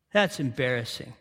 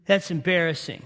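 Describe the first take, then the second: First: Softer and lower muttered repeat; quiet aside. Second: Said in the usual way. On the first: Shown as a demonstration. Preacher judging Jonah's prayer, softer repeat. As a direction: drop it low, like shaking your head.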